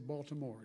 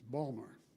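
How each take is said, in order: First: The city name is said the outsider way. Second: The city name is said the local way. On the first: This is not how locals say it. The speaker calls it wrong. "They don't say" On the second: This is how locals say it. The speaker calls it right.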